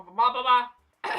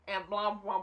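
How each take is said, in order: First: Blah, blah, blah stretched slow and louder; dragging out the blahs to wave off the interview; drawn-out blah. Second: Said in the usual way. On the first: Real, not acted. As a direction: drag each blah out lazily. Brushing off rest of interview.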